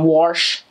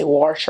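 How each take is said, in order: First: Said in the usual way. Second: "wash" with an r sound, "warsh"; southern "wash". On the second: Retold or imitated. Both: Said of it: "they say wash".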